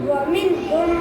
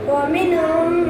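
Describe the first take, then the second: The two takes are said the same way.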